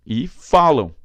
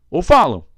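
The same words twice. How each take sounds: First: "falam" called loud with the weight on "fa"; louder call of "falam", "fa" strong; right stress. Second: Louder, higher "falam" with the weight pushed onto "lam"; loud wrong take of "falam", "lam" punched; rejected stress try. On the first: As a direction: call "falam" the way people really say it. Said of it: "Então, falam". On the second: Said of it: "Não, tá vendo? Não tem acento". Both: Shown as a demonstration.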